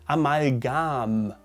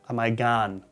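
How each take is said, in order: First: The word ends with a clear m sound. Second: The word does not end with an m sound. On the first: The speaker calls it right. "So with an M at the end, like mouse" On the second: The speaker calls it wrong. "many people say Amalgam, ... but it's wrong"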